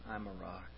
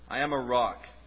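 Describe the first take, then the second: First: The line is said in a soft, gentle way. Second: The line is said in a forceful, hard way. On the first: The speaker calls it right. "Very gentle" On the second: The speaker calls it wrong. "They wouldn't have said it like that"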